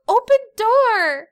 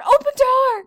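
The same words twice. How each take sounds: First: Put-on high, loud, slow toddler demand; little boy asking his mom to open the door, high and slow. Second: Put-on high, loud toddler demand. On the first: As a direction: play a small boy demanding. Toddler voiced in story. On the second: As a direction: insist like a small kid. Toddler voiced.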